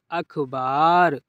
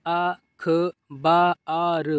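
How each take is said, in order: First: अखबार joined into one word, falling; blended reading. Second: अखबार slowly, broken into separate sounds; sounded out. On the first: Teacher completing the word for learners, blended reading. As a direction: read अखबार whole after sounding it out. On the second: Teacher showing learners easy reading, अखबार sounded out. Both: Shown as a demonstration. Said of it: "इस तरीके से आप पढ़िए".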